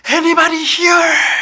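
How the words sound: It is called out with vivid, dramatic feeling.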